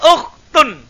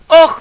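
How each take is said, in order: First: The word ends with the syllable tun. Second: The word ends in a bare t sound. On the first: The word continues into the following speech. "kalau dilanjut oh tun" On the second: The word is stopped at the end. "Tapi kalau disukun"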